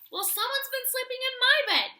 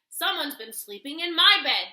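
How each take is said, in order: First: It is said in a medium bear growl. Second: It is said in a huge, deep bear growl.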